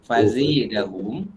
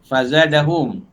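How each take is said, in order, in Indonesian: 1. Vokal setelah z condong ke 'e'. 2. Vokal setelah z adalah 'a' terbuka biasa.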